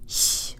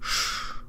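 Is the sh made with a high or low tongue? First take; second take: high; low. First: The sh is made with a high tongue. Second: The sh is made with a low, back tongue. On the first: The speaker calls it wrong. "Not sh with a high tongue" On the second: The speaker calls it right. "tongue really far down and back"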